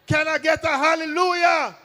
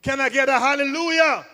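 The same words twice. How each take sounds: First: Shouted high, like a preacher at full force. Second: Said in the usual way. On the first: Shown as a demonstration. Comedian shouts to the crowd like a preacher. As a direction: whip the crowd up with it.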